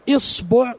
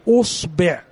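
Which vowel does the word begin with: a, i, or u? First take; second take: i; u. First: The word begins with an i vowel. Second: The word begins with an u vowel. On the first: "لو جئنا بالكسر" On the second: "لو جئنا الآن بالضم"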